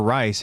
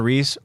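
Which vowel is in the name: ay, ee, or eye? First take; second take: eye; ee. First: The vowel sounds like the one in 'eye'. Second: The vowel sounds like the one in 'see'. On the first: "it's not Reese or Rice" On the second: "it's not Reese or Rice"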